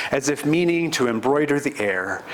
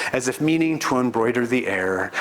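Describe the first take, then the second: Both takes have the same delivery.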